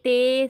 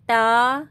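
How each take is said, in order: First: The letter name ends in an e vowel. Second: The letter name ends in an a vowel. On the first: It follows Urdu pronunciation. The speaker calls it wrong. "Urdu तलफ़्फ़ुज़ से परहेज़ करें ... इस तरह से हमें नहीं पढ़ना है" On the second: It follows Arabic pronunciation. The speaker calls it right. "हमें पढ़ना है"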